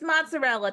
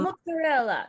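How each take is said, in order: First: It is said with a plain American accent. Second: It is said with a foreign-sounding accent. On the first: The word fits the speaker's own accent. The speaker calls it right. "No, it's mozzarella, people" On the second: The speaker is putting on a foreign pronunciation. The speaker calls it wrong. "throws in a non-American word"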